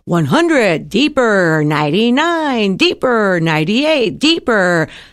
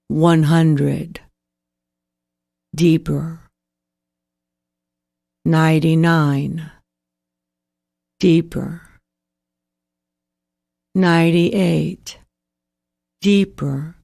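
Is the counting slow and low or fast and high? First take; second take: fast and high; slow and low. First: It is said quickly with a high pitch. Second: It is said slowly with a low pitch. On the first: It keeps you awake. The speaker calls it wrong. "You'll never get to sleep like that" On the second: It helps you fall asleep. The speaker calls it right. "in a slow pace and low pitch"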